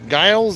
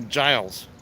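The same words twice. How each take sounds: First: It begins with a hard G sound. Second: It begins with a soft G sound. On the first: "G as in good" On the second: "G as in giraffe"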